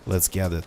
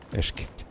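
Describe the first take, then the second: First: The words are pronounced clearly and separately. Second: The words are slurred together into one word.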